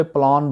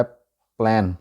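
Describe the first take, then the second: First: प्लान with a long "aa", plaan; wrong local pronunciation. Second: प्लान with a flat "æ", plan; corrected pronunciation. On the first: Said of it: "वहाँ पे प्लान बोला जाता है". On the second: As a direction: say प्लान with the vowel of "cat". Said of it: "pronunciation है". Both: Shown as a demonstration.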